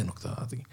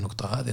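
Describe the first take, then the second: First: Breathy near-whisper, much softer; voiceless murmur of "نقطة هذه"; whispered repeat. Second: Said in the usual way. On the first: Shown as a demonstration. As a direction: drop to a whisper on the echo. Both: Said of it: "repeats the point twice".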